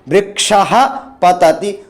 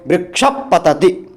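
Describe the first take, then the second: First: An open breathy h sound comes before patati. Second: A puff through closed lips comes before patati. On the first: "जब आप विसर्ग बोल रहे हैं तब वह बिल्कुल पूर्ण हवा मुंह से जो बाहर आ रही है" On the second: "जब आप उपधमानीय को बोल रहे हैं तब आपके दोनों ओष्ठ मिल जा रहे हैं"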